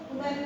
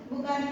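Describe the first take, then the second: No difference in how they are said.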